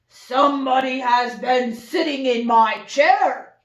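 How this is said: It is said in a big, deep voice.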